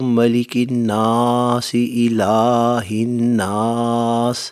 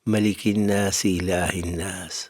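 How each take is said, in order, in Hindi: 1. लंबे स्वर ऊँची आवाज़ में और खींचकर पढ़े जाते हैं। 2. लंबे स्वर छोटे और एक समान रखे जाते हैं।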